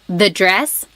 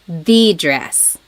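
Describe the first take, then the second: First: The stress falls on dress. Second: The stress falls on the.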